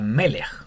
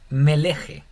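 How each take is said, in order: First: The word ends on the consonant. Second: A short e vowel ends the word. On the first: The speaker calls it right. "tampoco se pronuncia" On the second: The speaker calls it wrong. "No sería Meleje"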